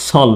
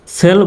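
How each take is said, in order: First: সল with o in place of e; second accepted pronunciation. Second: সেল rhyming with "bell"; first accepted pronunciation. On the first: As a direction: say সল with an o vowel, "sol". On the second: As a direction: say সেল with an e vowel, "sel". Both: Shown as a demonstration. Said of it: "দুইভাবে উচ্চারণ করা যায়".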